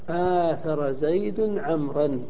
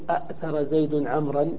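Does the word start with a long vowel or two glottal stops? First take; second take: long vowel; two stops. First: One glottal stop with a long vowel is heard. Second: Two glottal stops are heard at the start. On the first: The speaker calls it right. "وإنما تقول العرب آثر زيد عمرا وجوبا" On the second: The speaker calls it wrong. "ما نقول أأثر زيد عمرا"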